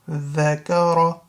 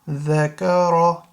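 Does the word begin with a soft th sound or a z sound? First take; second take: soft th; soft th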